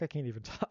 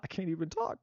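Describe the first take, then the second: First: Laughing. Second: Said in the usual way. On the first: Real, not acted.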